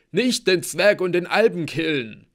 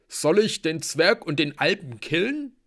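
First: High, loud, falling wail; whimpered plea. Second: Loud, high, rising question; belligerent warrior. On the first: Blitzen begs not to be killed, wailing. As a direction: beg frantically for your life. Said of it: "wimmerte Blitzen". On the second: Halbgeboren asks about killing the guests, loudly questioning. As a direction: offer violence at full voice. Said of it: "starrte Blitz und Hearth wütend an". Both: A narrator's reading.

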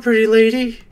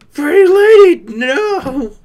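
First: Said in the usual way. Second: Pretty lady yelled high and loud, cracking; loud high wailing protest; anguished wail. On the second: Real, not acted. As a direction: cry out in mock despair. Wails the same words.

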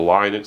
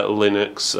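First: Linux said LIE-nuks; long-i pronunciation. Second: Linux said LIN-uks; short-i pronunciation. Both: Shown as a demonstration. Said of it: "depending on how you want to pronounce it".

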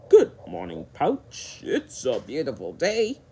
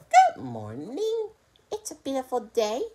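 First: Casual greeting with a hint of a crocodile voice; storybook crocodile's easy good morning; lightly voiced casual crocodile. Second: Slightly higher fox greeting, rising at the end; a hint of a fox voice; lightly voiced casual fox. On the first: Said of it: "said Swampy in a casual way". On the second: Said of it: "in a casual way". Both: A narrator's reading.

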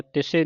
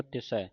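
First: ਤਿਸੇ ending in narrow "e"; wrong vowel ending. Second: ਤਿਸੈ ending in open "ai", softly; correct open ending. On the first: Teacher shows students the misreading, ਤਿਸੇ with "e". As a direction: say ਤਿਸੇ as "tis-ay". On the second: Teacher corrects students' reading, ਤਿਸੈ with open "ai". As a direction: say ਤਿਸੈ with a wide final "ai". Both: Shown as a demonstration. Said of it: "ਤਿਸੇ ਨਹੀਂ ਪੜ੍ਹਨਾ".

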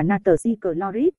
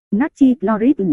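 First: "natri chloride" with added linking syllables; Vietnamese phonetic reading. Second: Said in the usual way. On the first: Shown as a demonstration. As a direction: read "natri chloride" as na-tờ-ri cờ-lo-rít. (đọc "natri chloride" theo âm tiếng Việt) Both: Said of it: "đọc là".

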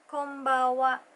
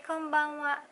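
First: "Konbanwa" said as "Kobawa", second-syllable N swallowed; relaxed everyday "Konbanwa" with the middle N slurred away; Konbanwa with the N dropped. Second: Said in the usual way. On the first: Shown as a demonstration. Teaching how natives say it, "Konbanwa" with no N. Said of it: "The N on the second syllable is missing". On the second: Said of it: "but you can also say".

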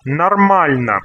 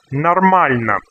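The two takes are said the same way.

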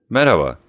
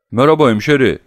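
First: Short, cool hello; cold greeting. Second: Loud, higher-pitched unfriendly hello; hostile greeting. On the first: Oblomov answers Tarantiyev looking out of the window, coldly. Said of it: "soğuk soğuk". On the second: Tarantiyev greets Oblomov with a nasty look, loud and hostile. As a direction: throw the greeting out hard and loud. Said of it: "kötü bir bakışla". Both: A narrator's reading.

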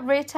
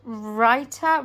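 First: "Raita" said quickly as RAY-ta; second-guessed pronunciation. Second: "raita" drawn out as RYE-ta; unsure pronunciation. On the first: Vlogger unsure of a label, trying "Raita" as RAY-ta. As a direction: try "Raita" with an ay vowel. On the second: Vlogger reading a pizza label, trying "raita" as RYE-ta. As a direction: try "raita" slowly with an eye vowel. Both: Real, not acted. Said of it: "I don't know how to say that".

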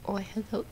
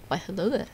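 First: Soft, half-hearted greeting voice; a fumbled try at a put-on greeting voice; botched put-on voice. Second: Lightly hammed-up accented greeting; put-on greeting voice. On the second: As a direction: redo the put-on greeting more neatly. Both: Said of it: "that was a bad version".

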